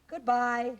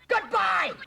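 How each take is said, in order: First: It is said calmly and nicely, falling. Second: It is said forcefully, with strong feeling.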